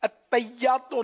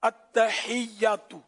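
First: The word is said rushed, with sounds clipped. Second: The word is said fully, with every sound clear. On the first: The speaker calls it wrong. "التحیاتو نہیں ہے" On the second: The speaker calls it right. "التحیاتو یہ ہے"

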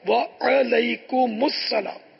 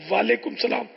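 First: The opening vowel is short, 'wa-alaikum'. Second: The opening vowel is drawn out as 'waa'. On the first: The speaker calls it right. "واو پر بھی زبر ہے, عین پر بھی زبر ہے" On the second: The speaker calls it wrong. "سلام کرنا ہی نہیں آتا"

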